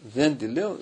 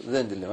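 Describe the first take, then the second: First: Louder, rising defiant refusal with «δεν» pushed up; mock shout. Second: «δεν» dropped low and final, settling the refusal; falling refusal. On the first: Possessed woman refusing the priest, louder shout. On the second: Retold or imitated. Possessed woman closing her refusal, falling. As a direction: end it flat and final, no climb. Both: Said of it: "Άρχισε να φωνάζει αυτή, έτσι".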